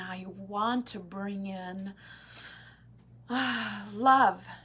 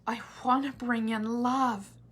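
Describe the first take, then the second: First: It sounds strained and needy, with a hesitation. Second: It sounds light, easy and joyful. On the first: The wish comes from lack. The speaker calls it wrong. "coming from a space of I need" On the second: The wish comes from joy. The speaker calls it right. "come from a space of joy"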